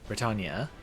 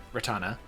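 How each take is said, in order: Both takes have the same delivery.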